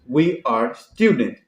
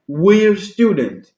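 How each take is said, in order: First: We and are are said as two full words. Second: We and are are squeezed into one syllable.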